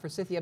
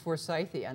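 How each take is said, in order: First: The surname Forsyth sounds changed inside the word. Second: The word keeps the sound of the surname Forsyth. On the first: The speaker calls it wrong. "not Forsythia" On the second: The speaker calls it right. "Forsyth was his name. So it's for it's Forsythia"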